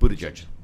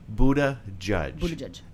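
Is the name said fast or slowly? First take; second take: fast; slowly. First: The name is said quickly as one word. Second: The name is said slowly, syllable by syllable.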